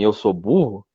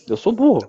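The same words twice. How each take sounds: First: It is said in the speaker's normal voice. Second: It is said in a Mickey Mouse voice.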